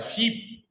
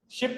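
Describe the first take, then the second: First: "शीप" higher, with a long ee. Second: "शिप" higher, with a short i as in "ship". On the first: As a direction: say "शीप" with the vowel held, not "ship". ("शीप" में लंबी ई) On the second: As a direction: say "शिप" with a quick i, unlike "sheep". ("शिप" में छोटी इ) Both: Shown as a demonstration. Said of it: "शिप नहीं है ये".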